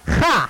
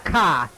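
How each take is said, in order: First: It starts with a raspy, throaty hiss. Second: It starts with a hard k stop. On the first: The speaker calls it right. "It sounds like you were going to spit" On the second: The speaker calls it wrong. "It's not a hard K. It's not a ka"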